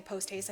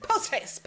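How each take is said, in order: First: Said in the usual way. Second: High-pitched, repeated-catchphrase mimicry; comic high quote; imitated catchphrase. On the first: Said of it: "keeps saying". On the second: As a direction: jump up high to mock the phrase. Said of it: "He's like".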